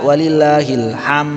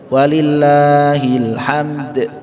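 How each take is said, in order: First: The final d sound is left off. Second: The final d sound is clearly released. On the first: The speaker calls it wrong. "Jadi bukan walillahil ham saja, dalnya hilang" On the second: The speaker calls it right. "Jadi dalnya mantul"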